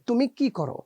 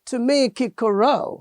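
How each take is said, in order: First: The syllables are even, with no strong push. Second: The final syllable gets a strong stress push. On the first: A native speaker is saying it. The speaker calls it right. "কিন্তু আসলে কি হবে তুমি কি করো, এটা হচ্ছে Bangla" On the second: A foreigner is saying it with English music. The speaker calls it wrong. "করোকে সে রোতে একটা স্ট্রেস দিয়ে দিচ্ছে, ধাক্কা দিয়ে দিচ্ছে"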